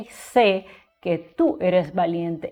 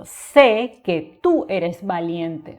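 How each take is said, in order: First: Slow, careful repeat; slow teacher's example; slow example read. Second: Slow, deliberate dictation; slow teacher's example; slow example read. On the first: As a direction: say it slowly again for students. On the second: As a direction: read it out slowly for the class. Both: Shown as a demonstration. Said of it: "Por ejemplo".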